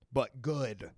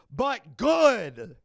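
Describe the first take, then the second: First: Said in the usual way. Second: High, loud burst on GOOD; sudden yelled insistence, pitched up; emphatic shout. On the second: Real, not acted. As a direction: belt it out, stretching the last word. Repeats it as a shout.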